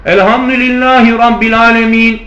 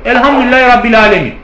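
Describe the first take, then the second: First: Put-on sung, child reciting. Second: Teacher's correction. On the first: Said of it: "Çocuk". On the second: Retold or imitated. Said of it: "İbn Kesir dedi ki yok".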